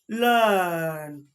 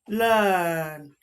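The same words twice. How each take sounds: No difference in how they are said.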